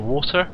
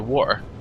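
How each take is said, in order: First: It is said in a non-Cornish accent. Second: It is said in a Cornish accent. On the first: This is how other people say it. "You say water" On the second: This is how the speaker himself says it. "I say water"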